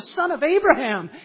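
It is read with lively excitement. The speaker calls it right. "You read it as Matthew intended"

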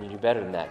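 The tone is warm and caring. The child is being reached with love. The speaker calls it right. "in a way to try to reach his heart"

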